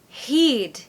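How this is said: The vowel is a Scottish ee-like sound. "turns to E"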